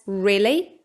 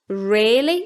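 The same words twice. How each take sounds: First: The first vowel is a short i sound. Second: The first vowel is a lengthened short i. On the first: "with a short I, as in risk" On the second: "using the same vowel as in risk, but making it long"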